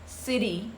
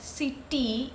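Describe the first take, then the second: First: The middle T is a soft, fast D. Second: The middle T is a hard T sound. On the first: The speaker calls it right. "it's city, city. So a very soft D sound" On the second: The speaker calls it wrong. "It is not city"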